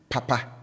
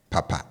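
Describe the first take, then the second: First: "papa" with both syllables held high. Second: "papa" with both syllables kept low. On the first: Teacher contrasting first word with second, high-high tone on "papa". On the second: Teacher contrasting second word with first, low-low tone on "papa". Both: Shown as a demonstration. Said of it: "as against the first one".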